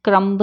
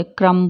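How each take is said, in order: First: क्रम्ब with a released final b; क्रम्ब, b voiced at the end; sounded B. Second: क्रम्ब ending on m; क्रम्ब with no final b; silent B. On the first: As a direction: say क्रम्ब as krum-buh. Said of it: "क्रम्ब नहीं बोलते". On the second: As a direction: say क्रम्ब as krum. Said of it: "क्रम्ब बोलते हैं". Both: Shown as a demonstration.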